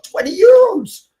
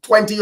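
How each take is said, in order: First: Very high, drawn-out squeal of disbelief; incredulous mock shriek; acted astonishment. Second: Higher-pitched mock Greek accent quoting a price; name the price in a Greek trader's accent; imitated Greek market seller accent; put-on Greek seller accent. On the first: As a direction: repeat the price in hammed-up shock, loud and stretched. His amazed reaction to seller's price. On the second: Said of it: "didn't have to do the accent".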